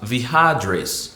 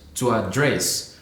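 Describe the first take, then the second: First: The second syllable is stressed and stretched. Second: The stress is on the first syllable.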